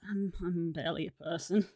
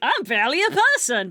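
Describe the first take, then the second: First: The tone is heavy and defeated. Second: The tone is light and casual. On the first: It sounds genuinely self-defeating. "it kind of came across as" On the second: It was meant as a lighthearted joke. "you probably meant it like"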